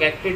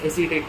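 First: It is said as two syllables, ak-tet. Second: It is said as three syllables, a-si-tet. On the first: The speaker calls it wrong. "बहुत लोग एक्टेट बोलते हैं" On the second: The speaker calls it right. "But pronunciation is सेलुलोइस एसीटेट"

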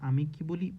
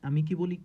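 No difference in how they are said.

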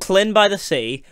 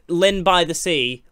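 First: The name starts with a breathy Welsh LL sound. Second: The name starts with a plain English L sound. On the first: The speaker calls it right. "Double L, which makes a cl sound because it's Welsh" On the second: The speaker calls it wrong. "This is LYNN is how everybody pronounces it"

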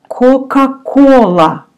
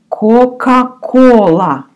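Both takes have the same delivery.

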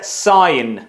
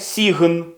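First: The word has an 'eye' vowel and no g. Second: The word has an 'ee' vowel and a hard g. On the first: The speaker calls it right. "це сайн" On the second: The speaker calls it wrong. "Ось це не сігн"

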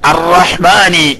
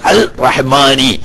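First: The l merges into a doubled r sound. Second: The l is pronounced separately before r. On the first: The speaker calls it right. "ഇദ്ഗാമ ചെയ്ത് ഉച്ചരിക്കുന്നോടത്ത്" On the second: The speaker calls it wrong. "ഇംഗ്ലീഷുകാരെ മോഡലിൽ പറഞ്ഞു"

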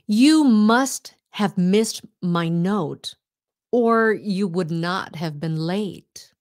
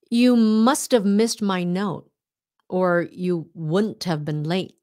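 First: The sentence is spoken at a slow pace. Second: The sentence is spoken at a fast pace.

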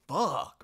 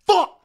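First: The word sounds amazed and impressed. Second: The word sounds pained and annoyed. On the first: The speaker is admiring a fancy car. "you see a Lamborghini, you're going to go" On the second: The speaker has just hurt a toe. "you stub your toe"

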